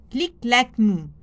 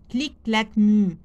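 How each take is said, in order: Both takes have the same delivery.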